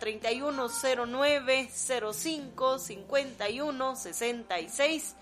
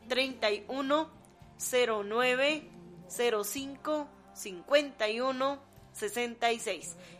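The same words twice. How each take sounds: First: The number is read at normal speed. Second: The number is read more slowly.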